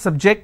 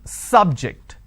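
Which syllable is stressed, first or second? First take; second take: second; first. First: The stress is on the second syllable. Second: The stress is on the first syllable. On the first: It is a verb. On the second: It is a noun.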